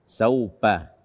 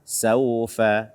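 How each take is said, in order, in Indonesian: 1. Konsonan tengah terdengar seperti p. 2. Konsonan tengah terdengar seperti f yang berdesah. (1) "membaca huruf fa tanpa hamas, atau seperti P kita" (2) "bukan saupa"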